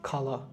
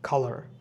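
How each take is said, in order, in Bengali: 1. শেষের 'r' ধ্বনিটি বাদ যায়। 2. শেষের 'r' ধ্বনিটি উচ্চারণ করা হয়। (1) "ব্রিটিশ ইংলিশে বলে খালা" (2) "আমেরিকান ইংলিশে আমরা কালার বলতে পারি"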